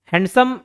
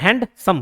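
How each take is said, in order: First: Said in the usual way. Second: "हैंडसम" split with a break, हैंड-सम; two separate syllables. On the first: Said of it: "हैंडसम को मैं दो बार". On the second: Shown as a demonstration. Teacher showing two changes of structure, "हैंडसम" in two parts. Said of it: "दो बार structure change हो रहा है".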